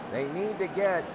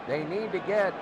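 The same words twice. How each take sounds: The two takes are said the same way.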